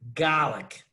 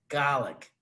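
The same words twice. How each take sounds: First: It is said in a plain accent. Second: It is said in a Brooklyn accent.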